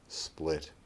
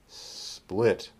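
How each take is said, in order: First: The S sound is short and ordinary. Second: The S sound is drawn out and exaggerated. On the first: "the second time we'll make a normal S" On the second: "The first time we'll exaggerate the S"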